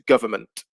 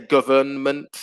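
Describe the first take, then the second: First: The N before the M is silent. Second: The N before the M is pronounced. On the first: The speaker calls it right. "So the N disappears. It becomes government" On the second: The speaker calls it wrong. "we don't say government. It'll be very difficult"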